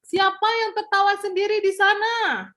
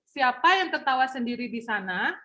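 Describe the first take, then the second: First: The sentence is said loudly. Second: The sentence is said at medium volume.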